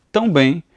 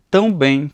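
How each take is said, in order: Both takes have the same delivery.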